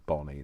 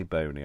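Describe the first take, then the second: First: "Bonnie" with a short O, as in bon; correct "Bonnie". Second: "bony" with a long O, as in bone; misread "bony". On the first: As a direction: say "Bonnie" to rhyme with Ronnie. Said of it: "I know it says Bonnie now". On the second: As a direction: say "bony" to rhyme with pony. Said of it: "It doesn't say bony, I realise". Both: Shown as a demonstration.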